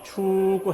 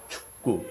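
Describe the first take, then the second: First: The first vowel is voiced and held out. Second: The first vowel is clipped and barely voiced. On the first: "근데 이게 음이 있다. 그럼 축구 해야 돼요" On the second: "그 모음을 울리지 않고 그냥"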